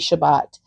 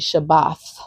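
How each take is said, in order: First: The word ends with a hard t sound. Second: The word ends with a soft th sound. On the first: The speaker calls it wrong. "Most people say Shabbat" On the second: The speaker calls it right. "but it's actually Shabbath"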